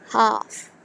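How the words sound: It is said in a British accent. "half is a British word"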